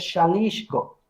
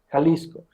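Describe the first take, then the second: First: It is pronounced the Nahuatl way. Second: It is pronounced the Spanish way. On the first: "En el náhuatl se pronuncia Xalisco" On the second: "en español se pronuncia Jalisco"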